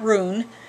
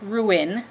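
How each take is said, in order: First: The word is squeezed into one syllable. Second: The word is said with two separate vowels. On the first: The speaker calls it wrong. "not ruin" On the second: The speaker calls it right. "it's ruin. Again, there's two vowels in there"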